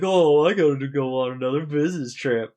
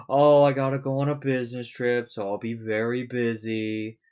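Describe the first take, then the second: First: Loud, high put-on voice for a phony excuse; fake excuse. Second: Fake excuse. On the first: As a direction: sell the business trip lie, loud and high. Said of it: "He's like". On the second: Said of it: "making the excuse of".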